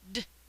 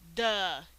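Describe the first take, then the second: First: The consonant is said alone, without a vowel. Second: The consonant is followed by a short uh vowel. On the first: The speaker calls it right. "The word dog begins with a d" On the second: The speaker calls it wrong. "not duh. Make sure you do not add the schwa sound"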